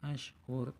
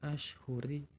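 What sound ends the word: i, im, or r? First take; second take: r; i. First: The word ends on the consonant r. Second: The word ends with a final i vowel. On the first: The speaker calls it right. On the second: The speaker calls it wrong. "bukan dibaca ashhuri"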